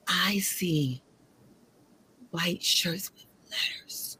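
It is said imitating the dramatic movie delivery.

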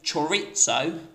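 It is said with a British pronunciation.

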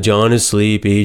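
It is read in a flat, bored tone.

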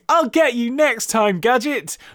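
It is said in a thin, weedy voice.

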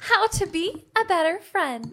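It is said in a Disney princess voice.

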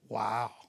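It sounds flat, bored and cynical.

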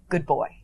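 It is said in a flat, neutral tone.

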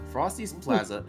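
It is said in an old man's voice. "I was doing my grandpa voice for so long"

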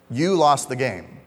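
The stress falls on the word 'you'. The listener personally is blamed. "there's some blame in that"

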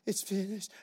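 It is said in a sad, defeated tone.

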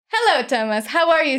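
It is spoken with nothing held in the mouth. "What happens if I take this out?"

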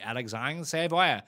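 The name is said a non-American, French-like way.

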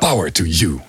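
It is said forcefully, with strong conviction. The speaker means the words seriously. The speaker calls it right. "Power is power. Dus power to you"

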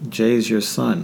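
It sounds wary and taken aback. The listener has heard something bad about the family. The speaker calls it wrong. "I don't want them to kind of back up like"

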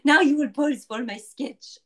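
It is said in a put-on French accent.

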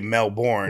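It is said in an American accent. "if you were to read it with an American accent, you'd say Melbourne"

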